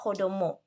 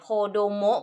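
First: The word is said with Japanese pitch. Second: The word is said with Thai tones. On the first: "ภาษาญี่ปุ่นเรียกว่าโคโดโมะ" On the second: "แต่ภาษาไทยอ่านโคโดโมะ ... ก็เป็นเสียงตรี"

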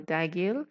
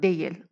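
First: It is said in another regional variant. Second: It is said in the common standard way. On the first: "or dagil" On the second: "but the the common pronunciation is değil"

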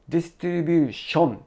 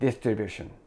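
First: The last syllable has a clear 'o' vowel. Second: The last syllable has a neutral 'uh' vowel. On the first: The speaker calls it wrong. "O の発音になってしまうこと" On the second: The speaker calls it right. "ションではなくて、シャン"

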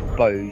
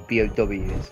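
First: It is spoken as a single one-syllable word. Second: It is spoken as three separate letters. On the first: The speaker calls it wrong. "You do not say bows" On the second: The speaker calls it right. "You say B-O-Ws"

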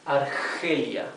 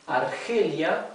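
Both takes have the same delivery.

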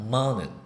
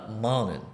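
No difference in how they are said.

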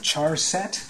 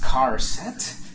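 First: The word begins with a 'ch' sound. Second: The word begins with a 'k' sound. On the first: "Some people would pronounce it char set" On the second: "It is pronounced car set, character set"

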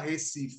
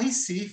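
First: The first vowel sounds like 'e'. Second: The first vowel sounds like 'i'. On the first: This is not how people here say it. "a gente não fala" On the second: This is how people here say it. "a gente fala"

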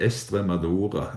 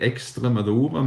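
First: The x sound is dropped. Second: The x sound is clearly pronounced. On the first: This is how the south of the region says it. "uten å uttale X-en" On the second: This is how the north of the region says it. "med uttalt X"

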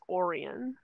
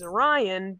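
First: It uses the local Michigan lake pronunciation. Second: It uses the usual constellation pronunciation. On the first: It names the lake in Michigan. "but the lake in Michigan is Orion" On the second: It names the constellation and the hero. "the constellation and the hero is Orion"

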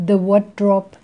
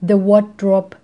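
No difference in how they are said.

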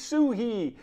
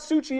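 First: The middle consonant is an 'h' sound. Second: The middle consonant is a 'ch' sound. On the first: The speaker calls it right. "it's Suhi" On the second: The speaker calls it wrong. "You're pronouncing it wrong. It's not Suchy"

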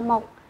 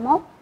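First: The word has a low, heavy, glottalized tone. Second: The word has a high, rising tone. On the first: The speaker calls it wrong. "ta không đọc là 1" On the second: The speaker calls it right. "chúng ta đọc là 1"

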